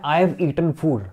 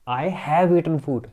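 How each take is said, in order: First: The word 'have' is not stressed. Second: The word 'have' is stressed. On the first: I have eaten food. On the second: I really have eaten food.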